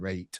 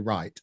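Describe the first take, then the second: First: The vowel sounds like the 'ay' in 'rate'. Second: The vowel is the standard 'eye' sound. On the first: "from Sheffield originally, so that's how I say it. I say rate" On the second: "I don't say right"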